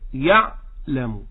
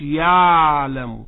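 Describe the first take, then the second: First: The ayn sound is heard briefly and then cut off. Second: The ayn sound continues smoothly without being cut off. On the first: The speaker calls it right. "العين لقوها بتتسمع وبعد كده تروح هي اللي قطع لوحديها" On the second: The speaker calls it wrong. "ما نقولش يعلم، لأن احنا عندنا في لغتنا العامية بتاعتنا اللغة المصرية العين رخوة"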